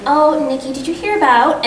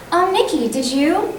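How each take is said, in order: First: Raised, eager gossip opener; chatty to a friend. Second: High, bright-up friendly opener; chatty to a friend. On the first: Actor greeting best friend Nikki before a read, eager and chatty. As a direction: start as if telling your best friend news. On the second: Actor warming up by greeting best friend Nikki, chatty. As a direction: call to your best friend before the line. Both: Shown as a demonstration. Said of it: "imagine that I'm talking to my best friend".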